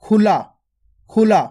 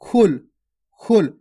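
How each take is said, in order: First: खुला with the final ला drawn out long; long aa at the end; stretched aa. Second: खुल said short, with no long a at the end; short khul. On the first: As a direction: drag out the aa in खुला. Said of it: "आ की मात्रा को खींच के पढ़ते हैं". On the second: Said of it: "अगर आ की मात्रा नहीं होती". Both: Shown as a demonstration.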